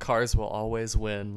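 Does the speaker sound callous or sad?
sad. It is said in a sad, sympathetic tone. The victim is pitied. "Was the tone like sad"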